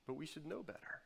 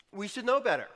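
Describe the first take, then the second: First: Very soft, sober admission; hushed concession. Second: Raised, loud admonition; emphatic reproach. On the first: Preacher admitting shared failing to congregation, hushed concession. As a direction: drop to a near-hush to admit it. Same reproach, softly conceded. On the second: Preacher chiding jaded Christians and himself, emphatic reproach. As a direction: press it home high and loud. Self-reproach, said forcefully first. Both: Real, not acted.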